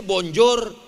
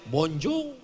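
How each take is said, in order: First: "bonjour" with a sounded final r; as written. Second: French "bonjour", final r softened away; as pronounced. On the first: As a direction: say "bonjour" by its spelling, r and all. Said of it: "tulisannya bonjour". ("bonjour" dibaca sesuai tulisan, R terdengar) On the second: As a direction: say "bonjour" French-style without a hard r. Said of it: "dibaca bonjour". ("bonjour" cara Perancis, R akhir tidak jelas) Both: Shown as a demonstration.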